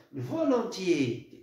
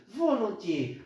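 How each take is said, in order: First: "volontiers" stretched very slowly, each syllable held; drawn-out emphasis. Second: Said in the usual way. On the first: Shown as a demonstration. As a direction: draw out "volontiers" slowly to make the point. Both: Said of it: "regardez bien".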